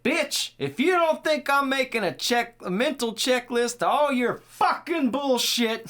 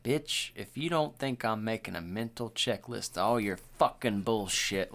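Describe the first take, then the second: First: Put-on high, loud drunk-stepdad tirade; imitated yelling. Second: Stinging, no joke. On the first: Host acts drunk stepdad cursing out his lady, imitated yelling. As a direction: rant at full shout, leaning hard on the swearing. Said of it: "he is yelling". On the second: Shown as a demonstration. Host shows how he'd say it to a lady, stinging. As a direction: say it seriously, slowing on the final curse. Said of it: "like, with sting to it".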